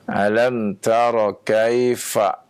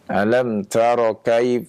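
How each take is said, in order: First: The f is a breathy lip-teeth sound. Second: The f is stopped like a p. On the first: The speaker calls it right. "Misalnya ya" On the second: The speaker calls it wrong. "Jangan ... seperti mengucapkan pak"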